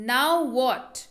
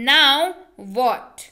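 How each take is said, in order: First: Said in the usual way. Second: "Now" loud, then a pause before "what"; emphatic, separated words. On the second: Shown as a demonstration. English teacher drilling a phrase for learners, emphatic and separated. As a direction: punch "Now", break, then land "what".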